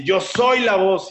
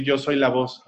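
First: Higher, slow declaration with SOY stretched; imitated empowered shout. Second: Said in the usual way. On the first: Girl stands up and declares it, imitated shout. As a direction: proclaim it forcefully, imitating a defiant cry. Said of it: "párate y grita". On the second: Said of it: "Entonces tienes que repetir".

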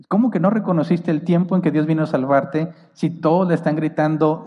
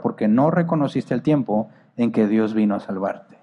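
First: Raised in disbelief; how can that be, questioned; incredulous. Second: Said in the usual way. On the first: Acted. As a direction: ask it as if it makes no sense. Repeats verse in disbelief.

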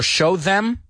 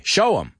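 First: "show them" with a full, clear "th". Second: "Show 'em" run together, no "th"; reduced 'EM. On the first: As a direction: say "them" fully, as a separate careful word. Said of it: "Mira cómo lo digo". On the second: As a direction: shrink "them" to a quick "'em". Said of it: "Digo show, apóstrofe, E M". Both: Shown as a demonstration.

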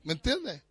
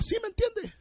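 First: Said in the usual way. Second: Much higher, softer mock dad voice; imitating dad. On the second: Pastor imitating his dad's catchphrase for the church, high and mock. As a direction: play your father asking it. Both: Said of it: "Como diría mi papá".

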